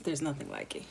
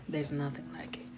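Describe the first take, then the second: First: Said in the usual way. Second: Soft breathy whisper. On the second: Real, not acted. Marveling at her husband's teeth sucking, whispered. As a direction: whisper it in awe.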